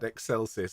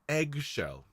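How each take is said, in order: First: It begins with an 'ex' sound, like Excel. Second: It begins with an 'egg' sound, like eggshell. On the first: The speaker calls it wrong. "I don't want to be reminded of spreadsheets" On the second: The speaker calls it right. "eggshell is a much much nicer combination of sounds to sing"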